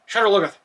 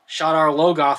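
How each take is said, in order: First: The name is said quickly and rushed. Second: The name is said slowly and deliberately. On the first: The speaker calls it wrong. "They're saying it very fast" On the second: The speaker calls it right. "I've always read it slower"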